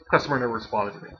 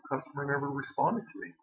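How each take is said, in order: First: It sounds hostile and dismissive. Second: It sounds helpless and puzzled.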